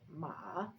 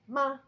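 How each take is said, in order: First: The pitch dips down and then rises. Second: The pitch falls sharply from high to low. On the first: It means horse. "It looks like a V shape because it goes down and up" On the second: It means to scold. "It's very sharp and goes down"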